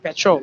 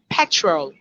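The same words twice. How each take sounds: First: The stress is on the second syllable. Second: The stress is on the first syllable. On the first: "here in Africa, we say petrol" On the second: "So the word is pronounced petrol"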